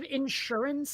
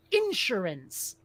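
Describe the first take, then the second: First: In-SUR-ance, stress on SUR; second-syllable stress. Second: IN-surance, slow, stress on IN; first-syllable stress. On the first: Host giving the preferred form, stress on SUR in insurance. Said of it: "Instead of insurance". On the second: Host recalling a word that irks them, stress on IN in Insurance. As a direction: say Insurance slowly, punching IN. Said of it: "put the emphasis on the first syllable". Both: Shown as a demonstration.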